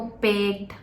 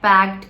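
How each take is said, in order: First: The vowel is a closer 'e' as in bed. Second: The vowel is an open 'a' as in cat. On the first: "पैक्ट को पेक्ट" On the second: "ए और ई sound mix match हो रहे हैं"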